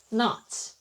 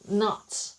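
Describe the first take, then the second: First: It is said with an American accent. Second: The same.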